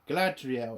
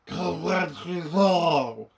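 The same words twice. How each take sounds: First: The name is pronounced in a plain, ordinary way. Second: The name is pronounced in an affected, exaggerated way. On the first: This is how the films said it. The speaker calls it right. "It was, you know, normal" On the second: This is how the show says it to sound authentic. The speaker calls it wrong. "It wasn't"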